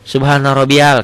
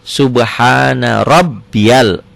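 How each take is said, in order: First: The b in rabbiyal is short and single. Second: The b in rabbiyal is held and doubled. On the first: The speaker calls it wrong. "ini aja banyak yang salah" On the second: The speaker calls it right. "Padahal ini ada tasdid"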